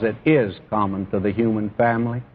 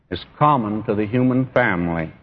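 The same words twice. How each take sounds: First: "is" stressed firmly, the rest falling away after it. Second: Said in the usual way. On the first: Real, not acted. Preacher explaining why he emphasizes sin, firm stress on "is". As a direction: lean on "is" to insist on the fact. Emphatic repeat of his reason.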